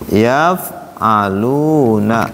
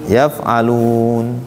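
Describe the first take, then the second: First: The word ends with a final vowel. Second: The word ends on a consonant, vowel dropped. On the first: "Contohnya yaf'aluna" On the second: "diwakafkan tuh gimana?"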